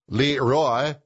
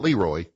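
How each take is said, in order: First: The name is said with a French pronunciation. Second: The name is said with an English pronunciation. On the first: The speaker calls it right. "That's what they called him in France" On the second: The speaker calls it wrong. "not Leroy"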